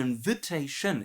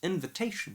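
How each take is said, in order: First: The main stress falls away from the 'tay' syllable. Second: The main stress falls on the 'tay' syllable. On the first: The speaker calls it wrong. "Pronouncing all the syllables wrong" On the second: The speaker calls it right. "little stress on the in and big stress on the tay"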